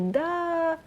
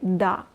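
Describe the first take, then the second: First: The word is drawn out longer. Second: The word is short and clipped. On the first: The speaker calls it right. "We kind of pronounce this ah a little bit longer" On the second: The speaker calls it wrong. "We don't say it's like uh, short and neat"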